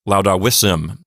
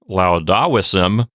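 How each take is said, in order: First: The stress falls on the syllable vis. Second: The stress falls on the syllable da. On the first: The speaker calls it right. "It sounds like" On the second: The speaker calls it wrong. "this will not sound like"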